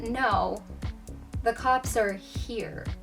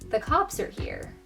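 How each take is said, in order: First: The word 'here' is strongly emphasized. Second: The word 'here' carries no special emphasis.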